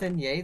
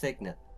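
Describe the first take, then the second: First: The word is pronounced with French-like sounds. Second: The word is pronounced with plain English sounds. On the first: This is how the speaker thought the name was said. "I thought it was a French word similar to chassis" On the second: This is how others say the name. "My friends were telling me that Signet is pronounced Signet"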